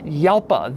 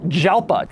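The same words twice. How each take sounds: First: The word begins with an H-like sound. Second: The word begins with an English J sound. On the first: The speaker calls it right. "That is the more correct way to say it" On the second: The speaker calls it wrong. "It is not Jalpa"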